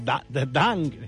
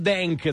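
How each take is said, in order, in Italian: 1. La prima vocale è un suono 'a' aperto. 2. La prima vocale è un suono 'e'.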